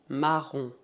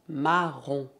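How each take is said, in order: No difference in how they are said.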